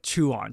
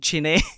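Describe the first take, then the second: First: The name sounds like 'chew on'. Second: The name sounds like 'chine'. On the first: The speaker calls it right. "the best way to pronounce it, is like kind of like chew on" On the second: The speaker calls it wrong. "I kept saying Chine"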